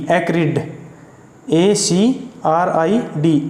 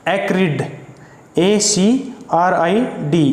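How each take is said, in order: Both takes have the same delivery.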